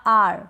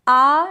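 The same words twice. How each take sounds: First: आर drawn out with a faint R; slow आर, the R barely sounded; slight R. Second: आ as a long open vowel, no R; long, slow आ with the R left off; silent R. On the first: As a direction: end आर on just a touch of R. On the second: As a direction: draw out आ slowly without any R. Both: Shown as a demonstration. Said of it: "र का उच्चारण बिल्कुल थोड़ा सा करें".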